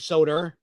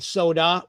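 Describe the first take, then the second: First: An r sound is added at the word's end. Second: The word ends in a plain vowel, no r. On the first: "sometimes we add R's where they don't belong" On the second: "instead of saying soda"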